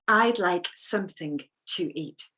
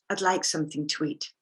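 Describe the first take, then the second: First: The words are said separately and carefully. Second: The words are linked together with reduced sounds.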